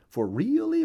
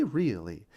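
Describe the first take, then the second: First: Really leapt way up high and loud; emphatic really. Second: Said in the usual way. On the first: Acted. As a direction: throw the first really up high to insist. Emphatic repeat.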